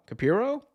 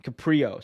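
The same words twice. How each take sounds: First: "Capiro" as ka-PEER-oh, high questioning rise; "Capiro" with no r after the p, unsure; unsure mispronunciation. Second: "Caprio" as ka-PREE-oh, falling; "Caprio" stated as a correction, r right after the p; corrected pronunciation. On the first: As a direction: try "Capiro" as a doubtful question, ending high. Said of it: "I can't read today". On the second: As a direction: say "Caprio" with a pr cluster, settled. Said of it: "sorry, Caprio". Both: Real, not acted.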